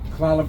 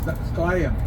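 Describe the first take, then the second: First: The name is said the anglicized English way. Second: The name is said the native tribal way. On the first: This is how outsiders say the tribe's name. The speaker calls it wrong. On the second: This is the tribe's own name for itself. The speaker calls it right.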